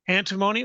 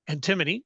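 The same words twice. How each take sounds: First: The word is said the speaker's usual non-Australian way. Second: The word is said the Australian way.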